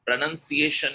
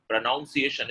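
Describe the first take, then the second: First: PRONUNCIATION with "nun" in the second syllable; correct pronunciation. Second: PRONUNCIATION with "noun" in the second syllable; wrong pronunciation. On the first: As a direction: say PRONUNCIATION as "pro-nun-see-AY-shun". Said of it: "is the correct pronunciation". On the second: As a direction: say PRONUNCIATION as "pro-NOUN-see-ay-shun". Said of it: "is wrong". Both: Shown as a demonstration.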